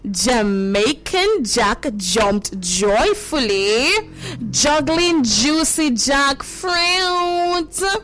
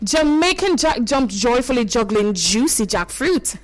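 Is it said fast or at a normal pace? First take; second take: normal pace; fast. First: It is said at a normal pace. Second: It is said fast.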